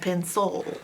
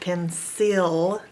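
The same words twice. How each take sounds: First: The second vowel is a weak schwa sound. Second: The second vowel is a full 'eh' sound. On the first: The speaker calls it right. "They say cancel and pencil" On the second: The speaker calls it wrong. "people don't pronounce it cancel and pencil"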